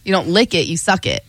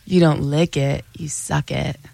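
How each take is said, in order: First: It is said at normal speed. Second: It is said more slowly.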